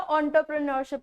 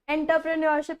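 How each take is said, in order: First: The first syllable starts with an 'on' sound. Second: The first syllable starts with an 'en' sound. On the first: The speaker calls it right. "ऑन्टरप्रेन्योरशिप होता है" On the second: The speaker calls it wrong. "एंटरप्रेन्योरशिप नहीं होता"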